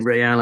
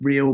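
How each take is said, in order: First: It is said like Spanish, as in Madrid's club. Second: It is said like the ordinary English word. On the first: The speaker calls it right. "but it should be Real, as in the football club Real Madrid" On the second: The speaker calls it wrong. "It's real"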